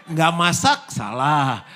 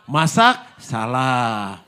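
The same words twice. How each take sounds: First: Loud, high cry of "Nggak masak"; exasperated outburst. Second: Louder still, fed up; exasperated outburst. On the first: Wife fed up with husband's complaints, loud exasperation. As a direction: throw up your hands, loud. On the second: Wife fed up with husband's complaints, louder exasperation. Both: Acted.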